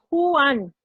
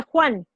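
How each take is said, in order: First: Juan broken slowly into Ju-an; split in two syllables. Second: Said in the usual way. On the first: Shown as a demonstration. Teacher showing how not to say a name, Juan split slowly as Ju-an. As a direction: stretch Juan into two separate beats, Ju, an. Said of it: "no dices Juan". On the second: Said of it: "cuando tú dices el nombre Juan".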